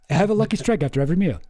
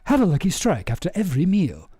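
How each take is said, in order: First: It is said in his normal voice. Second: It is said in a Kurzgesagt narrator voice.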